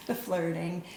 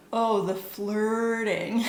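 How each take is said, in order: First: Said in the usual way. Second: Loud, drawn-out mock exasperated exclamation; exaggerated note reading. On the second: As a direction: draw it out very slowly and loudly, hammed-up. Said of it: "one of my notes just says".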